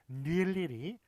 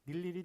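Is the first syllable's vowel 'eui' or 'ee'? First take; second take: eui; ee. First: The first syllable uses the diphthong eui. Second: The first syllable uses plain ee. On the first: The speaker calls it wrong. "이런 식으로 막 어렵게 발음해야 될 것 같은데요" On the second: The speaker calls it right. "그냥 이로 발음해 주시면 되겠습니다"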